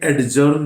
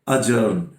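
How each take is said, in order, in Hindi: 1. d ध्वनि साफ़ तौर पर बोली जाती है। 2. d ध्वनि साइलेंट रहती है। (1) "तो ये एडजर्न नहीं बोलेंगे" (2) "ये डी साइलेंट रहता है"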